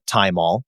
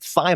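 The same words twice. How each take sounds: First: It begins with a T sound, like thyme. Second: It begins with a TH sound, as spelled. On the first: It follows the name of the herb it comes from. "because it's derived from the herb thyme" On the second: It follows the way the word is spelled. "because it's spelled T H Y M O L"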